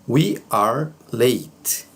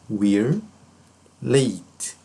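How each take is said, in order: First: We and are are said as two full words. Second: We and are merge into one quick syllable.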